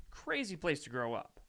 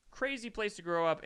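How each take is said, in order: First: Said in the usual way. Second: Crazy said higher and harder; emphatic repeat. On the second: Real, not acted. Repeating to his viewers, Crazy raised and stressed. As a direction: lean on Crazy the second time.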